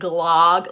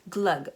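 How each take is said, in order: First: The word is said with an American pronunciation. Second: The word is said without an American pronunciation. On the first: The speaker calls it wrong. "like an American" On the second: The speaker calls it right. "I think it's just glug"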